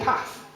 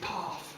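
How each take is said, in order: First: It has the speaker's own northern short vowel. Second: It has the southern long vowel.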